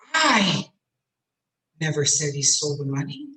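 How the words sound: The word "I" is stressed. Someone else said it, not me. "I wouldn't say such a thing. I?"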